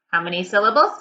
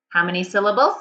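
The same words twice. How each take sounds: The two takes are said the same way.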